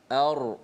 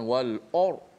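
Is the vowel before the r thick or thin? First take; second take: thin; thick. First: The vowel before r is light and thin. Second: The vowel before r is heavy and rounded. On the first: The speaker calls it right. "hamzah tu biasa" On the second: The speaker calls it wrong.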